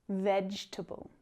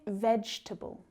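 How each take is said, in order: No difference in how they are said.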